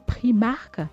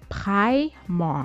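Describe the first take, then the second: First: It is said with a French pronunciation. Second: It is said with an English pronunciation. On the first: The speaker calls it wrong. "se faire appeler Primark par les Français" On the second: The speaker calls it right. "la bonne prononciation, c'est plutôt Primark"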